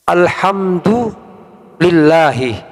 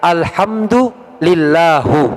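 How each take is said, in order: First: The word ends with an i vowel. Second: The word ends with a u vowel. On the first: The speaker calls it right. "Dia membaca kalimat" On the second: The speaker calls it wrong. "dibaca alhamdulillahu, begitu. ... Ini bahaya ini"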